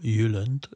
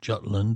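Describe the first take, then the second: First: The name has a local Danish pronunciation. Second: The name has its usual English pronunciation.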